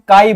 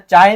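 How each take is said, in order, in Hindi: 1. शब्द की शुरुआत k ध्वनि से होती है। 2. शब्द की शुरुआत ch ध्वनि से होती है। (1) "इसको हम काई बोलते हैं ना" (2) "चाय नहीं बोलते"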